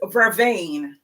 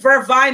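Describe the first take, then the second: First: The word is said the standard way. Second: The word is said the Jamaican way. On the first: This is the accepted standard name. The speaker calls it right. "the correct pronunciation is vervain" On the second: This is the local name used in Jamaica. The speaker calls it wrong. "We call it vervine in Jamaica"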